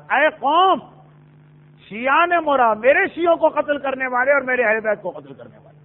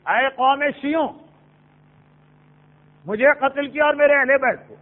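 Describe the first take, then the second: First: Raised قوم, clear break, then the rest; breath after قوم, keeping it apart from شیعہ; pause after قوم. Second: قوم شیعوں joined, long break before مجھے; breath taken only after شیعوں; pause after شیعوں. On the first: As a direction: call out قوم and stop before شیعہ. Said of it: "امام رکے تھے قوم کے بعد". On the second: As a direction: run قوم into شیعوں, then stop. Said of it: "کہ سانس شیعوں کے بعد". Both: Shown as a demonstration.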